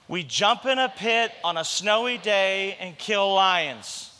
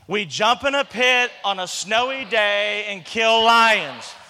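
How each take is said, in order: First: It is said quietly and weakly. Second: It is said bigger, with more energy.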